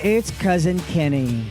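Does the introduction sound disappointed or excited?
disappointed. It sounds flat and disappointed, dropping down. The speaker calls it wrong. "That went way down. There was so much disappointment"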